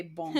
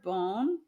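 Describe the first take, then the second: First: "bon" as in French, nasal vowel; French reading. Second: "bone" as the plain English word, long o; English reading. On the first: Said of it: "I wanna say bon". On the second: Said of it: "I see the word bone". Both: Shown as a demonstration.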